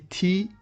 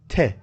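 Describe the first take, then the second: First: The letter is said with its English sound. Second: The letter is said with its French sound. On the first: The speaker calls it wrong. "Don't say T" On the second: The speaker calls it right. "Say T"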